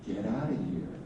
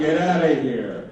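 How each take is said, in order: First: It sounds warm and fond. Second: It sounds angry but fond.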